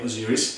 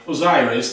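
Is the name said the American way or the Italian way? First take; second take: Italian; American. First: It is said with an Italian pronunciation. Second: It is said with an American pronunciation.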